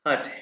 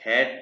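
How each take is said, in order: First: The vowel is an open 'ah' sound. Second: The vowel is a flat sound like 'cat'. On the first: The speaker calls it right. "क्योंकि ए को आ कहते हैं इसलिए हट" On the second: The speaker calls it wrong. "हैट नहीं"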